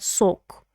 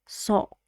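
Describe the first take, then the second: First: The vowel is strongly rounded, like oh. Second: The vowel is open, between ah and oh. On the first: The speaker calls it wrong. "it's not sock" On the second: The speaker calls it right. "It has more of an ah sound in it"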